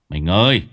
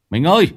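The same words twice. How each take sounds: First: Loud low call to his wife. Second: Loud, high call to his wife; shouting. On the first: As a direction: call through the door. (gọi vợ to tiếng) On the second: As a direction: yell through the door. (gào to gọi vợ) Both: Acted. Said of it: "gọi to".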